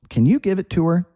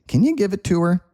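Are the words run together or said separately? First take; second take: run together; run together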